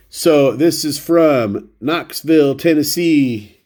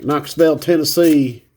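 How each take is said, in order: First: Said in the usual way. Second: A hammed-up Tennessee accent, "Knoxville" said as "Knoxvel"; bad Tennessee accent. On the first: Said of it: "I always wanna do a horrible accent". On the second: Shown as a demonstration. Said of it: "I always wanna do a horrible accent when I read off Tennessee".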